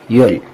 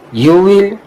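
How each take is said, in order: First: One contracted syllable, you'll. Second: Two full words, you and will.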